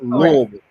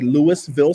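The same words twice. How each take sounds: First: The name is said in the local way. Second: The name is said in a non-local way. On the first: The speaker calls it right. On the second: The speaker calls it wrong. "it's not a Louisville Slugger"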